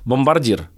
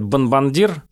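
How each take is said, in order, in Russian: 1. Согласный перед d — r. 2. Согласный перед d — n. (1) "Есть слово «бомбардир»" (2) "некоторые говорят «бомбандир»"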